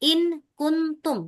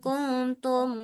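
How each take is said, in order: First: The n sound before k is clear. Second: The n sound before k is hidden. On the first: The speaker calls it wrong. "Bukan in kuntum. Tidak boleh nyebut in kuntum" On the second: The speaker calls it right. "Yang kuntum muqinin"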